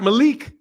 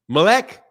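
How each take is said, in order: First: The second vowel sounds like 'ee'. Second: The second vowel sounds like 'eh'. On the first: The speaker calls it wrong. "not Malik" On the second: The speaker calls it right. "if the I is pronounced like an E"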